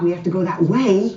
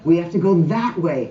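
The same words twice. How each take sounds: First: The word 'that' carries no special stress. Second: The word 'that' carries strong stress.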